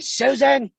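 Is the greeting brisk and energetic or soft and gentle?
brisk. It is said briskly with high energy. The caller does not match the listener's manner. The speaker calls it wrong. "your tone did not mirror hers"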